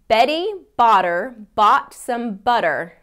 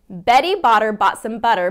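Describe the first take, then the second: First: It is spoken at a slow pace. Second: It is spoken at a faster pace. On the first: "Even slowly" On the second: "let's see if I can do it a little bit faster"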